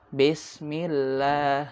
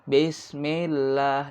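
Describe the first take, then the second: The two takes are said the same way.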